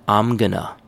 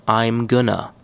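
The two takes are said the same way.

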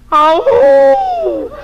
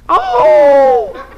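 First: The call is sultry, with a seductive quality. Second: The call is plain, with no seductive quality. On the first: The speaker calls it right. "Sex appeal? How is this?" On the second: The speaker calls it wrong. "No, not like that"

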